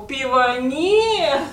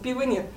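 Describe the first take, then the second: First: It is said in a marked, pointed tone. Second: It is said in a plain, neutral tone. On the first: There is no beer, with a rude or dismissive attitude. The speaker calls it wrong. "а то" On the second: There is simply no beer. The speaker calls it right. "ну написали бы просто"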